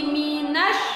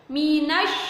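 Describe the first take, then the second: The two takes are said the same way.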